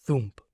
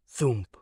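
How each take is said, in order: Both takes have the same delivery.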